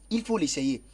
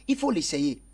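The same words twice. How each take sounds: Both takes have the same delivery.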